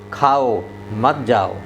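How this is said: There is a pause after खाओ.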